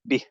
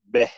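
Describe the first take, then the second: First: The vowel is a clear 'i' sound. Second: The vowel is an open 'e' sound. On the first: The speaker calls it right. "It's supposed to be bih" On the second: The speaker calls it wrong. "bih often gets mispronounced as beh"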